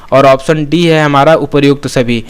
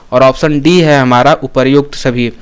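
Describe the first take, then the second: Both takes have the same delivery.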